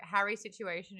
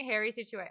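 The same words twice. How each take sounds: First: "Harry" with a short "a" as in "cat"; own accent pronunciation. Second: "Harry" said like "hairy"; co-host's accent pronunciation. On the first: Showing the name in own accent, "Harry" with a short "a". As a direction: say "Harry" with an open "a", not like "hairy". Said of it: "It's Harry Situation for me". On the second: Trying the drag name as co-host says it, "Harry" sounding like "hairy". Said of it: "it works in your accent". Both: Shown as a demonstration.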